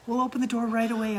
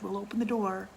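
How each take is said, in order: First: Promising. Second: Said in the usual way. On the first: Retold or imitated. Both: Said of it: "I said".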